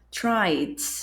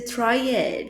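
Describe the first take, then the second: First: The E is silent, one syllable only. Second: The E is sounded as an extra vowel. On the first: The speaker calls it right. "esse E não é falado" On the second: The speaker calls it wrong. "não vai ser tried"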